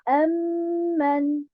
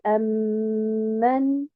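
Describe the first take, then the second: First: Only the first syllable is stressed. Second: Both syllables are stressed, splitting it apart. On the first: It is one word about asking God to answer prayer. The speaker calls it wrong. "uniquement un nabr sur harakat al-hamza et non pas sur harakat al-mim" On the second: Two separate words are meant. The speaker calls it right. "c'est أَمَّنْ"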